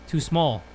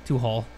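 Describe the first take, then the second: First: "Too small" said properly, with a clear sm; corrected reading. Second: "Too hall" mumbled low, small said as hall; misreading small as hall. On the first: Correcting his own misread of the game text, clear "small". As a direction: fix the word to "small". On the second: Mocking his own misread of the wall text, said as hall. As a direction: trip over the word, saying "hall". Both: Shown as a demonstration. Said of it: "I mean".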